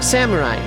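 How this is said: It is pronounced the American way. "go full American"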